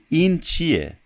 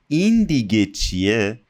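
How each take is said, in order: First: Said in the usual way. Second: Quick question, hit این hard at the start; emphatic surprised question. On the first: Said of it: "We can simply say". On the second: Shown as a demonstration. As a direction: stress on این, pitch peaking there then falling. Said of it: "it adds to our surprise".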